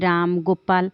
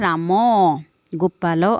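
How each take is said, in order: First: The words end on a bare consonant. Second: The words end with a short vowel sound. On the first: "ଶେଷରେ ବ୍ୟଞ୍ଜନ ବର୍ଣ୍ଣ ସହ ଅ ଉଚ୍ଚାରିତ ହୁଏ ନାହିଁ" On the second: "ଓଡ଼ିଆ ଭାଷାରେ"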